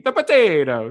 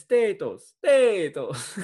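First: Mimicking in a loud, high Italian accent; exaggerated, sing-out mock Italian accent; bad Italian accent. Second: Drawn-out bad Irish accent; attempted Irish accent. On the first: Host mocking his co-host's attempt, bad Italian accent. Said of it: "one of those really bad Italian accents". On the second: Shown as a demonstration. Contestant showing the host it differs from Italian, bad Irish accent. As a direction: insist on it in a hammy Irish accent. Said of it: "That's different".

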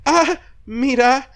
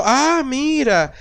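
First: High, slow, drawn-out delighted "Ah, mira"; fake-charmed delight; mock delighted ah. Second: High, slow, stretched "Ah, mira"; delighted "Ah, mira" said very slowly and high; mock delighted ah. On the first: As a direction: act pleasantly surprised, stretching it out. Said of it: "Y yo dije". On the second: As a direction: imitate a partner charmed by the food. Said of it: "al principio dijo".

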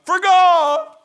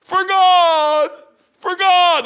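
First: High, loud, drawn-out cry; loud preaching. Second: High, loud, insistent repeats; repeated proclamation. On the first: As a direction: call it out to the street. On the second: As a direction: hammer it home for the crowd. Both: Shown as a demonstration. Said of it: "All you have to do is know three or four verses".

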